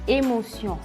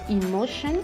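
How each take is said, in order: First: It is pronounced the French way. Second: It is pronounced the English way. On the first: "en français" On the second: "en anglais"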